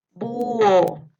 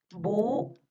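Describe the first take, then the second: First: Loud, drawn-out "Búho"; dictation. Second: "Búho" split as bú, pause, o; syllable-split dictation. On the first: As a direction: project "Búho" with a long u gliding into o. (dictado fuerte, alargando "Búho") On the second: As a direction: separate the two vowels of "Búho" with a gap. (dictado separando "Búho" en sílabas) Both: Shown as a demonstration. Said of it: "les voy a ir dictando".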